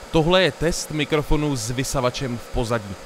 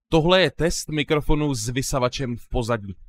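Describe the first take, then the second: First: A loud vacuum cleaner hums behind the voice. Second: The voice sounds clean without background vacuum noise. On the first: "Půjdu zapnout vysavač a zkusíme to znova" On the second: "pokud zapneme noise removal, tak to zní asi nějak takhle"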